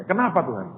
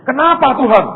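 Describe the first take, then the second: First: Said in the usual way. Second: Loud high outcry at God; protesting cry. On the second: Retold or imitated. Asking God why, retold. (seruan protes keras dan tinggi)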